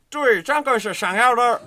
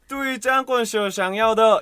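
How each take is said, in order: First: It is said with a Beijing-style accent. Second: It is said with a Shanghai-style accent. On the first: "북경 발음은" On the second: "상하이 발음은 ... 이게 중국 상하이 발음이고"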